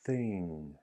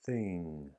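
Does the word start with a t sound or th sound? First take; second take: th; th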